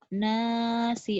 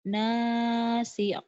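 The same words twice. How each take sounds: The two takes are said the same way.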